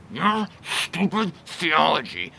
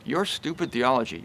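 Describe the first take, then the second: First: "your stupid theology" slow and sneering; scornful. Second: "your stupid theology" softer and calm; meek. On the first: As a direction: drag out the contempt. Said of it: "notice the difference between". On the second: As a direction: say it gently, no sneer. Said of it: "Note the difference between that and". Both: Shown as a demonstration.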